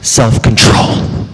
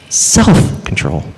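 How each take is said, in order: First: "control" hit hard and stretched; slow self-control, weight landing on "control"; stress on CONTROL. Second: Slow, low, weight on "self"; "self" stretched, "control" trailing low; stress on SELF. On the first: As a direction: punch the second word, "control". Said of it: "I put the emphasis on the word control". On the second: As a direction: punch "self", then drop "control" away. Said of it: "I just said the same word three times". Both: Shown as a demonstration.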